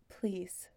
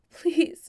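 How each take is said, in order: First: Soft breathless whispered plea; whispered please. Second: High, loud cry of please; desperate loud plea. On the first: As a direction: beg it under your breath. Ryan begs for the belt. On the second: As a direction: cry out begging. Ryan begging, losing control. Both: Acted.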